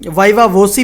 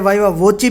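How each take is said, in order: First: The last syllable sounds like 'see'. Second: The last syllable sounds like 'chee'. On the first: "वाइवा वोसी भी बोला जाता है" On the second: "वाइवा वोची भी बोला जाता है"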